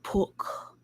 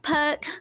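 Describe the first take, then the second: First: It is said in a northern English accent. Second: It is said in a Southern American accent. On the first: "you say it with like an accent" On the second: "I'm Southern, so I'm just like"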